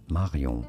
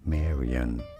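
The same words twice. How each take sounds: First: It is said with a French pronunciation. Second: It is said with an English pronunciation. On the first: "Like in French, it is said as" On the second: "In English, this is generally said as"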